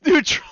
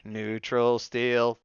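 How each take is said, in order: First: High, loud mock "neutral". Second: Very slow, stretched "Neutral steel"; drawn-out demo. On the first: Co-host teasing the other over staying neutral, high mocking echo. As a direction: squeak out "neutral" far above the usual pitch. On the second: Shown as a demonstration. Co-host showing how neutral steel should sound, slow drawl. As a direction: draw out each word, lower and held. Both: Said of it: "it should be like this".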